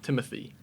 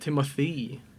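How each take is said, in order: First: The name is said with an American accent. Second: The name is said with a French accent. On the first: "instead of" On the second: "the E has like an accent to it"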